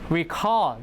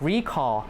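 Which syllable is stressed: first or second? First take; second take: second; first. First: The stress is on the second syllable. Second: The stress is on the first syllable. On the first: It is a verb meaning to remember. "the stress is on the second one" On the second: It is a noun meaning calling back. "That's a noun"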